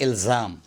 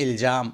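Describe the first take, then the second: First: "الزام" as ilzaam, buzzing z; careful ilzaam for "الزام"; correct z sound. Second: "الجام" as iljaam, with j; mispronounced j for z. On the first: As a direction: say "الزام" with z, not j. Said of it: "الجام نہیں". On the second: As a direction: say "الجام" with j after the l. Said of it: "غلط تلفظ کرتے ہیں". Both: Shown as a demonstration.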